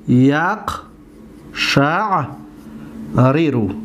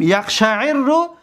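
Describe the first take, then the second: First: یقشعر رو broken into yaq, sha', ri-ru with long pauses; original unmerged form. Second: یقشعر رو as yaqsha'irru, joined with a double r; merged form. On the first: Teacher showing the verb's original shape, یقشعر رو in slow separate syllables. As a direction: spell out یقشعر رو syllable by syllable, r's apart. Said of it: "در اصلش این طور است". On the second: Teacher naming the present verb, یقشعر رو in merged form. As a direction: run یقشعر رو together, holding the rolled r. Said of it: "اولا اصلش بیان کنیم". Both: Shown as a demonstration.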